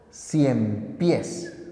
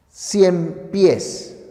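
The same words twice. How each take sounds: First: "Cien pies" as one word, "pies" carries the stress; stress on the last syllable. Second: "cien" stressed, "pies" falling as a second word; separate words. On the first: Teacher showing "Cien pies" as one compound word stressed on "pies". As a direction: run "Cien pies" together and land on "pies". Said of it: "Palabra aguda, termina en S". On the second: Teacher showing "Cien pies" as two monosyllables, stress on "cien". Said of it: "Es una palabra compuesta". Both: Shown as a demonstration.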